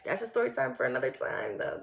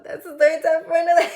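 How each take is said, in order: First: Low, softer dismissive aside. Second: High, loud, quick and playful; high playful repeat. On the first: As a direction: drop the voice to set it aside. Aside dropping a racy tangent. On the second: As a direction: rush it up high, about to laugh. Repeats the aside, breaking into laughter. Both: Real, not acted.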